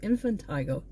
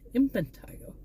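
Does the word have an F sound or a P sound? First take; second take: F; P. First: The word is said with an F sound. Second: The word is said with a P sound. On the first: The speaker calls it wrong. "I always thought it was Infantigo with an F" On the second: The speaker calls it right. "but it's with a P"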